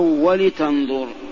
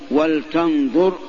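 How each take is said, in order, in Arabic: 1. يأتي بعد اللام صوت الكسرة. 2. لا يأتي بعد اللام أي حركة. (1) "بالكسر" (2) "بسكون لام"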